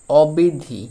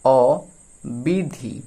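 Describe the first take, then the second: First: Said in the usual way. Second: অবিধি stretched very slowly, syllable by syllable; slowly drawn out. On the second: Shown as a demonstration. Teacher reading অবিধি to children, very slowly drawn out. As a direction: linger on every sound of অবিধি.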